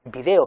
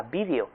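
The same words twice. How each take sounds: First: Video stressed on the second syllable, vi-DE-o; American video, stress on DE; llana video. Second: Vídeo stressed on the first syllable, VÍ-deo; esdrújula vídeo. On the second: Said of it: "la forma esdrújula". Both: Shown as a demonstration.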